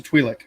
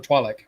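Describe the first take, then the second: First: Twi'lek said as TWEE-lek; Twi'lek with a long ee in the first syllable; first pronunciation variant. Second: Twi'lek said as TWY-lek; Twi'lek with a long i in the first syllable; alternative pronunciation. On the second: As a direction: say Twi'lek with an "eye" vowel, rhyming with why. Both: Shown as a demonstration. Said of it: "however you wanna say it".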